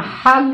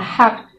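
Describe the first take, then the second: First: The word ends with a g sound. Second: The word ends with a k sound. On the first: This follows the spelling. "according to spelling, pwede mong pronounce yun na hag" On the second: This is how locals there say it. "the hack daw ang pag-pronounce nun"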